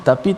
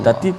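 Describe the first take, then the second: No difference in how they are said.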